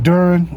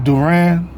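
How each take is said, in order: First: Fix the name: Duran, weight on the first syllable; corrected name. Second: Duran said as "duh-RAN", stress on the last syllable; mispronounced name. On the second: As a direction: say Duran with a clear RAN at the end, the wrong way. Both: Real, not acted.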